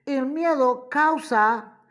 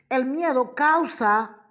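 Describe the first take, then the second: No difference in how they are said.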